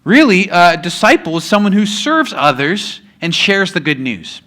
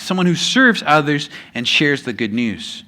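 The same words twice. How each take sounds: First: Said in the usual way. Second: Dictating slowly for notes, each word spaced; slow note-taking dictation. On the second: Shown as a demonstration. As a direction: say it so they can write it down. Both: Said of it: "If you're taking notes, that's one of the blanks".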